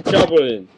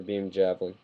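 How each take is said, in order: First: Imitated Japanese battle cry; Japanese show impersonation. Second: Said in the usual way. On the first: Shown as a demonstration. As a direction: call it out with a hammed-up Japanese accent. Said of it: "That even sounds relatively like the show". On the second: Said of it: "The only one I can actually do".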